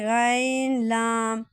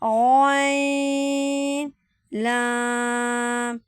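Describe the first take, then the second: First: The first letter is said thin and light. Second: The first letter is said heavy and full. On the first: The speaker calls it wrong. "ऐसे गाइन लाम नहीं पढ़ेंगे" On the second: The speaker calls it right. "इसको भी पुर पढ़ेंगे"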